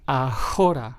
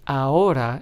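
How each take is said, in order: First: The h is pronounced aloud. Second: The h is completely silent. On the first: The speaker calls it wrong. "and not ahora" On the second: The speaker calls it right. "It is pronounced as ahora"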